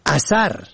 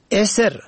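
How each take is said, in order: First: اثر said "a-SAR"; fatha on both syllables. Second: اسر begun with short e, "eser"; kasra then sukun. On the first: Presenter teaching look-alike Dari words, اثر as "asar". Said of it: "به فتح اول و دوم". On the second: Presenter teaching look-alike Dari words, اسر as "eser". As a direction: open اسر on e, not a. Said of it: "به کسر اول و سکون دوم". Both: Shown as a demonstration.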